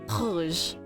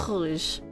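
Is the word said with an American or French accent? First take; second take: French; French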